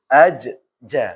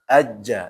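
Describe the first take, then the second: First: The doubled consonant is split apart with a bounce. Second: The doubled consonant is joined smoothly without bounce. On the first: The speaker calls it wrong. "Kalau dipisahkan itu ajja aslinya" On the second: The speaker calls it right. "karena dia ada tasydid maka ajja langsung"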